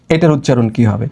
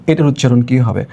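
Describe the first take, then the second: No difference in how they are said.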